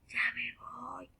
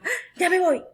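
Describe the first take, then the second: First: It is said in a very quiet voice. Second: It is said fast and hurried.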